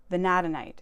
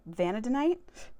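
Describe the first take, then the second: First: "Vanadinite" as vuh-NAD-uh-nite, loud and falling; corrected pronunciation. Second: "vanadinite" stressed on the first syllable, rising like a question; unsure pronunciation. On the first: Correcting herself on the mineral's name, "Vanadinite" firmly as vuh-NAD-uh-nite. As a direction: hit the second syllable of "Vanadinite" firmly, NAD. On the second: Reading out a mineral's name unsurely, "vanadinite" as a questioning VAN-uh-duh-nite. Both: Real, not acted. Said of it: "that's how you pronounce it".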